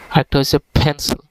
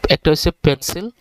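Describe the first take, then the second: First: পেন্সিল starting with a breathy F, like ফেন্সিল; F sound. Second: Said in the usual way. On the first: Shown as a demonstration. Teacher giving the corrected version, airy F start. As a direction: push air through the lip at the start of পেন্সিল. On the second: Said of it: "দেখেন, একটা হচ্ছে পেন্সিল".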